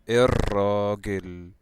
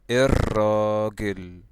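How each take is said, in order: No difference in how they are said.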